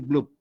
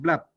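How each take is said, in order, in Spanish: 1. La palabra se pronuncia con pronunciación española. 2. La palabra se pronuncia con pronunciación inglesa. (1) "como nosotros somos peruanos, tranquilamente podemos decir blub" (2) "su pronunciación en inglés es blab"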